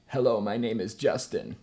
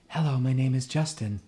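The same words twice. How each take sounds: First: The voice is compressed and firm. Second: The voice is breathy and decompressed.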